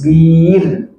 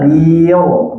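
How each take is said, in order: First: The syllable is pronounced light and thin. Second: The syllable is pronounced heavy and thick. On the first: The speaker calls it right. "begitu bunyi tipis" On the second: The speaker calls it wrong. "Kalau tebal"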